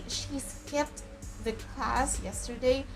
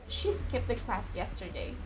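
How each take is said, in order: First: The t sound at the end of skipped is pronounced. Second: The t sound at the end of skipped is dropped. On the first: The speaker calls it wrong. "We don't say" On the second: The speaker calls it right. "We just say"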